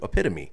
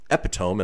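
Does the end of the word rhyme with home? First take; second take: no; yes. First: The word ends without a sound rhyming with home. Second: The word ends in a sound rhyming with home. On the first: The speaker calls it right. "as opposed to epitome" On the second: The speaker calls it wrong. "if you look at it, you would pronounce it probably epitome"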